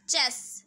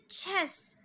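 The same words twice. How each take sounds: First: Chess with an unaspirated ch, close to j; 'jess'-like take on chess; mispronounced chess. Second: Chess with an aspirated छ at the start; correct chess. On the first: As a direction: say chess wrongly, no puff on the ch. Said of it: "Not this, this is Charlie". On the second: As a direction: say chess slowly with a puff on ch. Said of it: "थोड़ा छ का sound होना चाहिए". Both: Shown as a demonstration.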